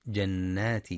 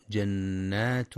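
First: جنات said with the correct damma ending, jannātun; correct reading. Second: جنات said slowly with a wrong kasra ending, jannāti; wrong reading. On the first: Teacher demonstrating the correct damma reading. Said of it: "والصواب أنها بالضم". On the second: Teacher demonstrating the wrong case ending. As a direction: show the mistaken kasra on جنات. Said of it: "يخطئ بعضهم فيقرأ". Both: Shown as a demonstration.

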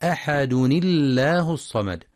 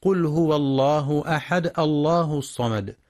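First: "أحد الله" joined as ahadu-nillah, with a light lam; correct joined tanween. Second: "أحد" stopped on a vowelless dal, not joined to "الله"; mistaken sukoon. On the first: Tajweed teacher modelling the correct link, "أحد الله" as ahadunillah. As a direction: link "أحد" to "الله" through a kasra on the nun. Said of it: "فتنطق". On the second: Tajweed teacher showing a reading error, "أحد" with bare final dal. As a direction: recite "أحد الله" with a still dal and no tanween. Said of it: "والصواب أن الدال منونة بالضم". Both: Shown as a demonstration.

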